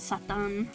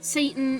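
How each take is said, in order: First: It is said with a Japanese pronunciation. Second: It is said with an English pronunciation.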